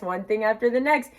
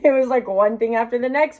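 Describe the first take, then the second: First: Said in the usual way. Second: Breaks into a laugh, a bit higher and louder; laughing exasperation. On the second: Real, not acted. Vlogger laughing to viewers about dental woes, laughing. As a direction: laugh it off in disbelief. Laughing at her bad luck.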